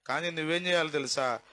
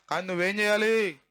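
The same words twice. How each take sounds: First: Said in the usual way. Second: చేయాలి hit hard, louder and falling; loud rhetorical demand on చేయాలి; emphatic challenge. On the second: Shown as a demonstration. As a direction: press the congregation on చేయాలి.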